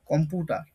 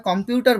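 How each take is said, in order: First: কম্পিউটার said as kompuTa, the i dropped and the final r swallowed; uneducated mispronunciation. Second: Said in the usual way. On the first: Shown as a demonstration. Teacher showing students how unschooled people say it, kompuTa. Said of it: "অনেকে বলবে কম্পিউটার". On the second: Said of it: "তো আমরা কম্পিউটার বলি".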